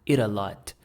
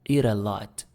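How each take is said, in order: No difference in how they are said.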